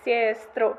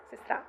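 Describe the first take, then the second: First: "sestro" slow, with a lengthened first syllable; Autuki dialect pronunciation. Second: Said in the usual way. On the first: Shown as a demonstration. Linguist contrasting dialect case forms, "sestro" with long first vowel. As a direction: stretch the pretonic vowel in "sestro". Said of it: "I can try reproducing how it sounds". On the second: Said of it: "nominative sister just sounds as sistra".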